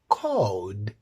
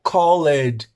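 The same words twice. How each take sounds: First: The ending is just a D sound. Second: The ending is said as an extra syllable. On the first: The speaker calls it right. "You say called" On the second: The speaker calls it wrong. "you don't say like called"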